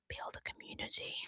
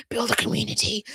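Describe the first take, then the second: First: Whisper. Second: Said in the usual way. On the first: Acted.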